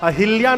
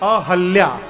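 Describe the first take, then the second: First: The second syllable is said as hi. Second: The second syllable is said as ha. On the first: The speaker calls it wrong. "अहिल्या नहीं" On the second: The speaker calls it right. "ही नहीं है, ह है"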